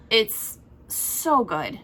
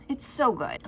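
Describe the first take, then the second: First: A long stretched "so" in "It's so good."; drawn-out praise. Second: Said in the usual way. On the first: Shown as a demonstration. Booktuber gushing over a book, stretching out "It's so good.". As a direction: savour "It's so good." slowly.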